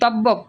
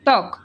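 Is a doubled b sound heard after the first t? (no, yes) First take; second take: yes; no. First: A doubled b sound follows the first t. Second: No b sound follows the first t. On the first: The speaker calls it wrong. "এটাকে আমরা বলি না তব্বক বলি না" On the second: The speaker calls it right. "তক বলি।"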